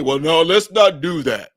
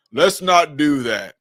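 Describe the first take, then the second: First: Said in the usual way. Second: "Let's not do that" slowed, each word pressed; slow, pointed self-correction; slow deliberate repeat. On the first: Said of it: "repeats it slower". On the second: Real, not acted. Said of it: "repeated slower, in a changed voice".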